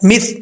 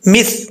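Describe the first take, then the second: The two takes are said the same way.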